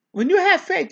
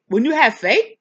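First: "you" lifted high, falling after; stress on you. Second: "have" pushed louder with a rising lift; stress on have. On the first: Preacher turning the line on each listener, stress on "you". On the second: Preacher urging the class to have faith, stress on "have". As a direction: hit "have" hard and let it rise. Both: Shown as a demonstration.

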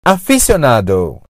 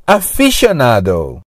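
First: Aficionado with an S sound, a-fi-syo-NA-do; low model aficionado, plain S not SH; first pronunciation variant. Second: Aficionado with SH, a-fi-sho-NA-do; low model aficionado, SH in place of S; second pronunciation variant. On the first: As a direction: say aficionado with "sy" after the fi. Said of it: "Aficionado pode ser pronunciado". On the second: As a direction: say aficionado with "sh" after the fi. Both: Shown as a demonstration.

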